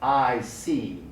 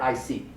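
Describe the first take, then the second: First: The vowel in see is drawn out long. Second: The vowel in see is short and clipped. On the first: The speaker calls it right. "like I see" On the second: The speaker calls it wrong. "Never I see"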